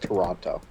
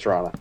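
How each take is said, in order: First: All three syllables are clearly pronounced. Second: It is clipped to two syllables, like Trawna. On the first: The speaker calls it wrong. "No one actually says Toronto" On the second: The speaker calls it right. "Everyone says Toronto. It's pronounced like piranha, but with a T"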